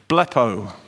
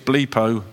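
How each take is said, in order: First: The first vowel is a short 'e' sound. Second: The first vowel is a long 'ee' sound. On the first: "That's how I'm pronouncing it" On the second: "If it's double E, it's bleepo"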